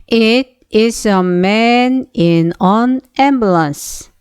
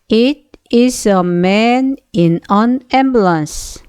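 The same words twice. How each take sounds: Both takes have the same delivery.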